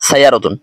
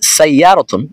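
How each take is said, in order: First: The middle vowel is cut short. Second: The middle vowel is drawn out long. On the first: The meaning changes. The speaker calls it wrong. "না বলে বলি সাইয়ারতুন তাহলে কিন্তু অর্থ পরিবর্তন হয়ে যাবে" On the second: It means car. The speaker calls it right. "এভাবে"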